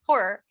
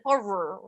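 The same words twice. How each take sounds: First: It is said relaxed in the speaker's native accent. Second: The R sounds are forced out with effort. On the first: "if I say it the way I want to say it" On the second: "it's so many R's for my Maryland accent that I actually struggle"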